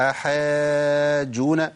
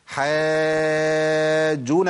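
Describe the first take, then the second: First: حاجون stretched slowly but with one jeem only; wrong: single jeem. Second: حاجون very slow, with the first jeem held sakin; correct doubled jeem. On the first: Teacher imitating a student's mistake. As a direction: drag out حاجون and swallow the doubled jeem. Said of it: "فين الجيمين يا عم". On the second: Teacher showing students the correct shadda. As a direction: chant حاجون slowly and hold the doubled jeem. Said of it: "لازم تبين الفرق". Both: Shown as a demonstration.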